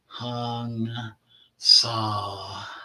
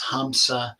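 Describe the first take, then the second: First: The word sounds like 'hong-sao'. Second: The word sounds like 'ham-sa'. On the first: "So, Hong Sao" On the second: "some people pronounce Hamsa as Hong Sao"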